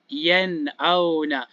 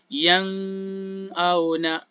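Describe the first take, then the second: First: The n is pronounced as a clear n. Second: The n is pronounced as an ng sound.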